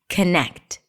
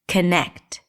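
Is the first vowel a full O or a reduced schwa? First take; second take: schwa; schwa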